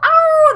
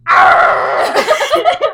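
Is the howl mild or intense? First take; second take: mild; intense. First: The howl is short and mild. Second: The howl is loud and intense.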